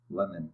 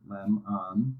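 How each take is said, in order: First: "lemon" as one word, second syllable a short i; teacher's blended model word. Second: "lem, on" as two separate syllables with a pause; slow teaching split, each syllable apart; syllables separately. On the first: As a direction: run "lemon" together smoothly. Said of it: "Combine them". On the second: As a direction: say "lem" then stop, then "on". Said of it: "Say both syllables separately first". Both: Shown as a demonstration.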